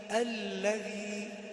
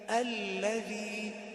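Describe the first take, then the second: First: The doubled l is held briefly. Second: The same.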